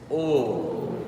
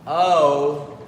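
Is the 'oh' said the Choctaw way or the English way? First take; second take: Choctaw; English. First: The vowel is said with slightly puckered lips. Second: The vowel is said with relaxed, unrounded lips. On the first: The speaker calls it right. "keep your uh, your lips puckered a little bit" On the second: The speaker calls it wrong. "it's not oh"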